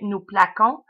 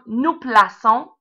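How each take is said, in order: First: The C is said as a hard K sound. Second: The C is said as a soft S sound. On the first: The speaker calls it wrong. "Sinon, on obtiendrait nous plaquons" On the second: The speaker calls it right. "pour conserver le son S, on va mettre une cédille"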